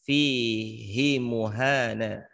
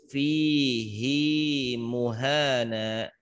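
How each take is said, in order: First: The vowel of 'hi' is kept short. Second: The vowel of 'hi' is held long. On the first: The speaker calls it wrong. "seharusnya hi-nya dibaca pendek" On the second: The speaker calls it right. "tetap dibaca panjang"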